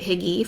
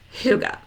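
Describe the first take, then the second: First: It is said like 'higgy', with an ee ending. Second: It is said like 'hoo-ga', with an uh ending. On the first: The speaker calls it wrong. "I pronounced it Higgy for a very long time" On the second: The speaker calls it right. "it's actually pronounced Huga"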